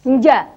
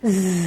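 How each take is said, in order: First: The consonant has no whistling hiss. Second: The consonant has a whistling hiss. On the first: The speaker calls it wrong. "Kalau za ini kita bangun tanpa adanya seruit, maka yang berbunyi adalah nja" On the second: The speaker calls it right. "padahal harusnya terbangun dari siul atau seruit tadi"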